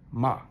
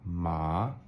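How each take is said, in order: First: The pitch falls sharply from high. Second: The pitch rises toward the end. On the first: "sharp down" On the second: "it goes up"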